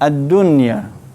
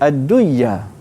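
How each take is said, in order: First: The n is pronounced clearly before the y. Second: The n is merged into the following y. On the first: The speaker calls it right. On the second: The speaker calls it wrong.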